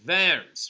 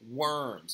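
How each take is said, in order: First: The word begins with a V sound. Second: The word begins with a W sound. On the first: It refers to the city in Germany. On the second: It refers to the animals.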